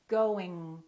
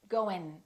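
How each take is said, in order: First: The final ng is held without releasing the g. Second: It ends in a plain n at the front. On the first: The speaker calls it right. "let the G just kind of stay there" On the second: The speaker calls it wrong. "they just produce the N before the G, and they produce it in the front of their mouth"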